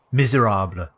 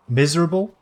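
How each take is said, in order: First: "Miserable" said the French way; French-style "Miserable", ending in "-ahbluh"; French pronunciation. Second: Said in the usual way. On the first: Shown as a demonstration. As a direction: say "Miserable" as mee-zay-RAHBL. Repeats the word French-style.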